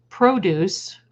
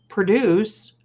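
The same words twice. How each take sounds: First: Produce said as PRO-duce, stress on the first syllable, long O; noun reading. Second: Produce said as pro-DUCE, weak first syllable, stress on the second; slower, pro-DUCE like the verb, prə-DOOS; verb reading. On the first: Reading spirit words to viewers, produce as PRO-duce. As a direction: read produce like the fruit-and-veg noun, PROH-doos. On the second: Offering the other reading to viewers, slow pro-DUCE. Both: Shown as a demonstration. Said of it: "or produce".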